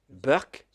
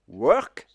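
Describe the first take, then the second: First: It starts with a b sound, Indian accent. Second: It starts with a w sound, standard accent.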